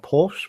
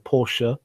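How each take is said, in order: First: The name is said in a casual, clipped way. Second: The name is said in a careful, full way. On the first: The speaker calls it wrong. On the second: The speaker calls it right. "I have to say it properly"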